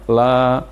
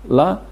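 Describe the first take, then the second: First: The vowel is drawn out long. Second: The vowel is short, one beat. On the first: The speaker calls it wrong. "Tidak boleh dibaca panjang, misalnya" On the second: The speaker calls it right. "Lam di fathah bunyinya adalah la"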